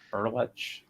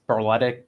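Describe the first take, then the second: First: The name is said the Croatian way, ending 'ch'. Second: The name is said the ordinary anglicized way. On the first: "the proper Croatian pronunciation" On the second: "ordinarily it's Berletic"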